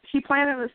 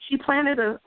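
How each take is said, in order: Both takes have the same delivery.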